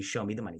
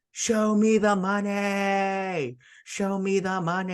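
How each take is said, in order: First: Said in the usual way. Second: Slow, stretched, higher and louder mock yell. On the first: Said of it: "I want you to repeat to me". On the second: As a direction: belt it like Jerry screaming into the phone. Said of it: "starts yelling at the top of his lungs".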